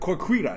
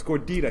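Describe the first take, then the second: First: The word begins with a voiceless K sound. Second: The word begins with a voiced G sound. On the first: The speaker calls it wrong. "He's like" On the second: The speaker calls it right. "It's gordita"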